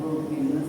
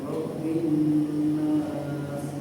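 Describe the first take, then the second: First: The nasal n sound is cut short. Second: The nasal n sound is held long. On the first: The speaker calls it wrong. "jangan langsung Robin Nas tadi" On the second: The speaker calls it right. "itu ditekan dulu ya"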